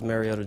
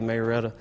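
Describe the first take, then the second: First: It is said in a standard accent. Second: It is said in a country accent.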